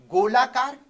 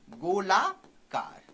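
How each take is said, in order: First: "गोलाकार" loud and in one piece; announcing the term. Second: "गोलाकार" stretched out, rising on "गोला", then dropping; slow dictation. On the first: Teacher announces the next type to students, "गोलाकार" said loudly. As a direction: call out "गोलाकार" as a new heading. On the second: Teacher dictates a term to students, "गोलाकार" slowly stretched. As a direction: draw "गोलाकार" out in two slow parts. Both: Shown as a demonstration.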